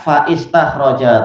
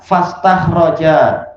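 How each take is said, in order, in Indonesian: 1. Ada vokal 'i' tambahan yang mengikuti 'fa'. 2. Tidak ada vokal tambahan yang mengikuti 'fa'. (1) "Alifnya terbaca faistakhroja, tak perlu" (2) "alifnya tak dipakai. Langsung apa? Fastakhroja"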